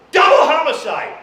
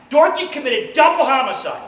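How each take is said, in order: First: Loud high Double homicide!; shouted emphasis. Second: Said in the usual way. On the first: Acted. Stressing Dorothy's crime to the crowd, shouting Double homicide!.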